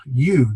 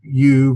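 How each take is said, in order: First: "you" stressed for contrast; drawn-out, contrastive "you"; emphatic you. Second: Said in the usual way. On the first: Shown as a demonstration. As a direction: lean on "you", as against me or them. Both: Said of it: "generally in contrast to me".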